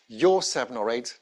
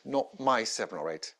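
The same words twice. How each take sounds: First: "Your" diberi tekanan, naik di akhir; stress on your. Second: "my" ditekankan, suara lebih pelan dan turun; stress on my. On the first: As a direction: tekankan kata "Your" dengan jelas. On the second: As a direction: tekankan kata "my", nada menurun. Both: Shown as a demonstration.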